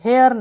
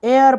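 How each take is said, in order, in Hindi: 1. यह एक सुनाई देने वाली h ध्वनि से शुरू होता है। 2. यह स्वर से शुरू होता है, h ध्वनि नहीं है। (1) "हेयर नहीं" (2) "एयर पढ़ा जाए"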